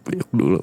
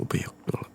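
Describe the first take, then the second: First: Said in the usual way. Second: The same words repeated in a hushed whisper; soft whisper. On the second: Acted. Boyfriend repeating his hug request to girlfriend, whispered. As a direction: drop to a whisper for the second ask.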